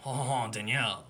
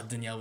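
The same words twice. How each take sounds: First: Put-on French accent. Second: Said in the usual way. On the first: Shown as a demonstration. Host teasing the friend about the name, French accent. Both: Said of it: "Danielle with a French accent".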